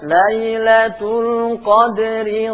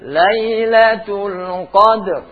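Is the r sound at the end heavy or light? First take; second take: light; heavy. First: The r is light and carries an i vowel. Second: The phrase stops on a heavy, thick r. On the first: The reader continues without pausing. "Kalau kalian baca terus" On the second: The reader pauses at this word. "Kalau kalian baca dengan berhenti"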